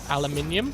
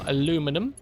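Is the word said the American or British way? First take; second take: British; American. First: It is said the British way, five syllables. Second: It is said the American way, four syllables.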